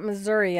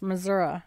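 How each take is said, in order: First: It is pronounced the way outsiders say it. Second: It is pronounced the way locals say it. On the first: The speaker calls it wrong. "it's not Missouri" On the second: The speaker calls it right. "it's Missouri"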